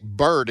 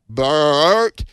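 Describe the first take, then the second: First: Said in the usual way. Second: BERT stretched into three syllables, louder and higher; mother's three-syllable name. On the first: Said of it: "My mother could make Bert into a three-syllable name". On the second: Retold or imitated. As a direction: imitate Mom calling BERT, dragged out long. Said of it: "make Bert into a three-syllable name".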